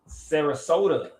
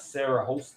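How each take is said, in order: First: The name ends with a 'soda' sound. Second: The name ends with a 'hosta' sound. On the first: The speaker calls it right. "Sarasota, like soda" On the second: The speaker calls it wrong. "not Sarah Hosta. I was saying Sarah Hosta"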